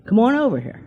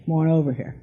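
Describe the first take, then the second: First: A light, higher coaxing call; beckoning call. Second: Said in the usual way. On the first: Retold or imitated. A mysterious voice calling her to the cemetery, higher and coaxing. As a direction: lure her over gently, like a spirit calling. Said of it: "Seriously, just like". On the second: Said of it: "something was saying".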